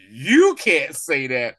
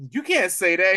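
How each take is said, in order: First: Very slow, louder, each word laid down; slow emphatic rebuke. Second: Said in the usual way. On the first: Retold or imitated. Fury correcting her, very slow emphatic rebuke. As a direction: drag it out like a final warning. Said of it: "He was like". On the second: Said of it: "she was like".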